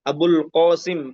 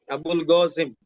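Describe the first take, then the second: First: The second word starts with a deep q sound. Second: The second word starts with a hard g sound. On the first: This is the standard Arabic pronunciation. "Abul Qasim pakai qa ya" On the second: This follows a Yemeni Arabic dialect. "orang Yaman itu mereka mengucapkan qaf itu pakai kata g, go"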